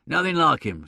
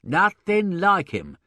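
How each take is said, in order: First: Said in the usual way. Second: Nothing like him dragged out slowly, like hit hard; insist, weighing each word of Nothing like him; emphatic repeat. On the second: Acted. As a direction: lean on every word, slow and firm. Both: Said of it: "repeated Mister Sullivan with emphasis".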